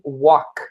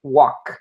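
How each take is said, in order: No difference in how they are said.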